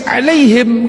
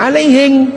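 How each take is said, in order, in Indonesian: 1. Kata ini berakhir dengan bunyi m. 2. Kata ini berakhir dengan bunyi ng. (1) "Ketika dibaca oleh orang Bugis"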